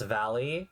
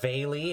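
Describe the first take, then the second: First: The first vowel is short. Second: The first vowel is long. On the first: The speaker calls it right. "The A is short" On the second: The speaker calls it wrong. "It's not Valley"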